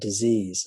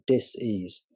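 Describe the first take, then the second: First: It is said as one ordinary word. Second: It is split into two parts, dis and ease. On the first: It means an illness. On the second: It means a lack of ease.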